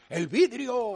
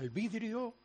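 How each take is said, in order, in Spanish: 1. Se grita ferozmente, como un grito de guerra. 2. Se dice con suavidad y ternura. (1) "nuestro grito de guerra" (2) "Ahora con ternura"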